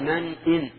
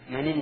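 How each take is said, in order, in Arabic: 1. همزة القطع تفصل بين الكلمتين بوضوح. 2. النون n تتصل مباشرة بالحركة دون توقف. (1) "هنا يجب الإظهار لأن همزة همزة السطر" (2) "هذا خطأ، لأنه إذا قال من إن تأمن جعل الهمزة همزة وسط"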